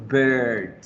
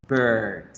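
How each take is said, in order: Both takes have the same delivery.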